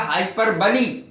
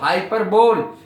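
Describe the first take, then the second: First: The word ends in two syllables, 'bo-lee'. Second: The word ends in a single 'bole' syllable. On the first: The speaker calls it right. "सही उच्चारण है इसका हाइपर बली" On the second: The speaker calls it wrong. "हम बोलते हैं इसको हाइपर बोल"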